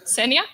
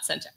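First: The middle consonant sounds like a y. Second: The middle consonant sounds like a j. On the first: The speaker calls it right. "Imagine the J is Y" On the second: The speaker calls it wrong. "not Senja"

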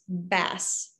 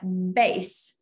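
First: It is said like the word for a fish. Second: It is said like the word for music. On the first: The speaker calls it wrong. "a lot of people read as bass, but bass, in fact, is a fish" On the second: The speaker calls it right. "But this is a bass. Bass in music"

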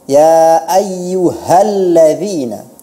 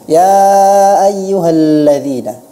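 First: The h sound is clear and full. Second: The h sound is weakened and unclear. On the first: The speaker calls it right. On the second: The speaker calls it wrong.

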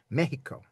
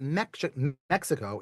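First: The middle consonant is a breathy h-like sound. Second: The middle consonant is a ks sound. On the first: The speaker calls it right. "that's with an H sound" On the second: The speaker calls it wrong. "So it's not Mexico"

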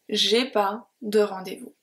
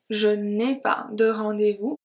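First: The negative 'ne' is dropped before 'ai'. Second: The negative 'ne' is pronounced before 'ai'. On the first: This is informal speech. "in informal speech" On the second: This is formal speech. "Very formal"

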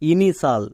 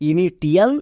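First: The ending is said as a single syllable: shal. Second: The ending is said with a t sound: tial. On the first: The speaker calls it right. "কিন্তু এর উচ্চারণ হবে ইনিশাল" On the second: The speaker calls it wrong. "একে অনেকে ভুল করে উচ্চারণ করে ইনিটিয়াল"

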